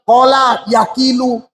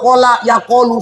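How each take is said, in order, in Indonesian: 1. Kata kedua memiliki vokal i setelah k. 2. Kata kedua memiliki vokal o setelah k. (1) "Jangan kalian bilang"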